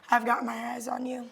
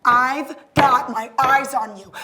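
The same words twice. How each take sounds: First: Hushed, hurried warning; quiet threat. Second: Loud, slow, drawn-out warning; forceful, deliberate menace; mounting threat. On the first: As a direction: slip the warning out fast and soft. First of escalating threats. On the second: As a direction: lean hard on each word. Threat repeated, escalating. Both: Acted.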